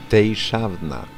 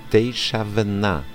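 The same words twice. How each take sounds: Both takes have the same delivery.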